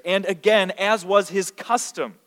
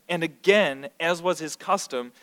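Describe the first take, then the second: First: "again" lifted and louder, "was" leaned on slowly; stressed repeat. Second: Said in the usual way. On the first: Shown as a demonstration. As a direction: punch "again", then draw out "was". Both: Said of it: "the emphasis here".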